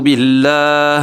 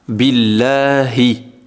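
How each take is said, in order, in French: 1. Le mot se termine sans la voyelle finale. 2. Le mot se termine par une voyelle finale i. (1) "Je ne veux pas dire a'oudhu billah" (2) "Normalement, je ne m'arrête pas"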